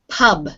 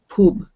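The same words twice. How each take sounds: First: It has the English uh vowel. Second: It has a Spanish-style u vowel.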